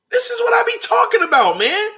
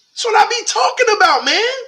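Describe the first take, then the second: First: Higher still, fast and thrilled; even more hyped. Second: High, excited shout of joy; hyped up. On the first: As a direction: ramp the excitement up further. Hyped reaction, repeated. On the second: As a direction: get pumped up over the play. Hyped reaction to Drake play. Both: Real, not acted.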